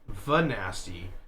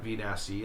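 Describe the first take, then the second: First: The V is blended into one single word. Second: The V is said as a separate letter name. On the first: The speaker calls it right. "It's Vanasty" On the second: The speaker calls it wrong. "It's not V Nasty"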